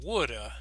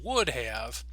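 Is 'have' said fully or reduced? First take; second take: reduced; full. First: 'Have' is reduced to a weak uh sound. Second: Both words are said in full.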